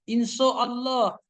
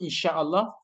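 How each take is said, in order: First: The second syllable is a plain 'so' sound. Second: The second syllable has a hissing 'sha' sound. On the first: The speaker calls it wrong. "jangan bilang inso" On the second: The speaker calls it right. "syahnya itu bagus"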